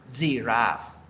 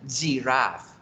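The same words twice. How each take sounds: Both takes have the same delivery.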